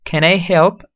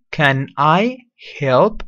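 First: Said in the usual way. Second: "Can I help?" drawn out very slowly, rising; slow model phrase. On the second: Shown as a demonstration. Teacher slowly modeling "Can I help?" for students. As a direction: stretch out "Can I help?" slowly so they can copy. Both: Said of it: "Listen to the pronunciation".

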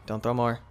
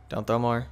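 Both takes have the same delivery.

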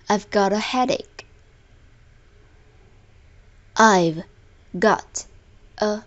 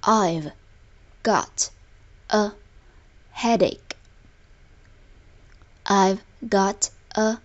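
No difference in how they are said.

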